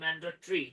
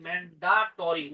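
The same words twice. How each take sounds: First: It is said with a standard English pronunciation. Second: It is said with a Bengali-style pronunciation. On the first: The speaker calls it right. "উচ্চারণ হচ্ছে" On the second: The speaker calls it wrong. "আমরা অনেকে বলি"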